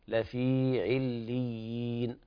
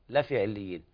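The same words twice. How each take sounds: First: The ya vowel is held for two counts. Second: The ya vowel is cut short, not lengthened. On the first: The speaker calls it right. "والصواب إثبات حرف الياء يمد مقدار 2 حركات" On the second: The speaker calls it wrong. "بعض الناس يقرأ لحنا لفي عليين لفي عليين هكذا، طبعا هذا خطأ"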